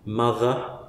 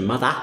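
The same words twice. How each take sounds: First: The final vowel is close to a neutral schwa. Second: The final vowel sounds like an open 'ah'. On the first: "which is sort of schwa-ish but maybe not perfect" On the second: "through to"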